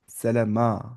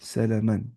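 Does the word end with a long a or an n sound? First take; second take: long a; n sound. First: The word ends with a long a sound. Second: The word ends with an n sound. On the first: The reader stops on this word. "अगर मैं पॉज दे रहा हूं मैं क्या पढ़ूंगा?" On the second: The reading carries on without a stop. "सलमन लिखा हुआ है।"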